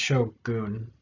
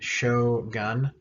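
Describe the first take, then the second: First: The last syllable lacks the English 'un' sound. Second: The last syllable rhymes with the English word 'gun'. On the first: The speaker calls it right. "so it's shogun" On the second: The speaker calls it wrong. "Americans say gun like shogun"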